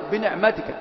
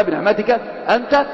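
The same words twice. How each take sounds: First: Said in the usual way. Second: أنت lifted and rising at the end; أنت rises at the close; stress on أنت. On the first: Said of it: "وانظر كيف قال". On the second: Shown as a demonstration. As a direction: lean on أنت to point to the Lord. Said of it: "نعمة مفرد مضافة إلى الرب".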